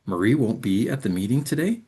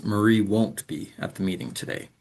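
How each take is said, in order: First: Today rising sharply at the end; rising question tune. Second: Today falling at the end; falling statement tune. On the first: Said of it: "turn it into a question by using a rising pattern". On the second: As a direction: let today drop as a firm statement. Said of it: "That falling pattern confirms it's a statement". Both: Shown as a demonstration. Teacher contrasting question and statement tunes.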